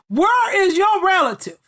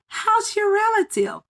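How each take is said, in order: First: It sounds bold and confrontational. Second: It sounds warm and friendly.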